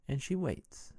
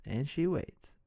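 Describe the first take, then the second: No difference in how they are said.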